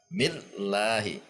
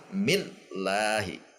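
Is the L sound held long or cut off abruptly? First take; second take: abrupt; abrupt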